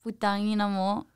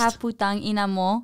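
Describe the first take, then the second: First: Soft, timid mumble of a swear word; hushed, reluctant delivery; near whisper. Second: Slightly more voiced, still reserved; modestly spoken up on request; a bit firmer. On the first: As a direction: say it under your breath. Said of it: "why are you gonna whisper it?". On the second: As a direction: say it out a little more firmly. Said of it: "Say it with your chest". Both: Real, not acted.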